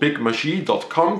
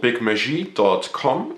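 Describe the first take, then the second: First: The name is pronounced the English way. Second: The name is pronounced the French way.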